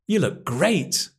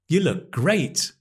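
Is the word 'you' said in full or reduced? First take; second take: reduced; reduced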